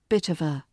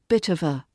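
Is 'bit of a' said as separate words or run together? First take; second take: run together; run together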